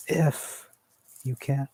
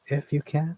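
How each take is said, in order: First: IF and you can thrown out high and loud with passion; intense, passionate. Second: "If you can" pushed high and louder, pressing them to step up; sharp rising "If you can", not angry but demanding more; exasperated emphasis. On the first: Shown as a demonstration. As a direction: hit "If you can" hard, pitched high, full of intensity. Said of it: "So with intensity, with passion, he said". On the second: Retold or imitated. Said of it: "he's not angry, but he's showing that".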